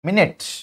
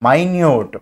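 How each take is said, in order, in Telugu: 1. ఇది 'MIN-it' లాగా వినిపిస్తుంది, మొదటి అచ్చు చిన్నగా ఉంటుంది. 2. ఇది 'my-NEWT' లాగా వినిపిస్తుంది, రెండవ అచ్చు పొడవుగా ఉంటుంది. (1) "మినిట్ అంటే మనకు అక్కడ టైం రిలేటెడ్ వర్డ్" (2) "మైన్యూట్ అని పలకాలి దాన్ని"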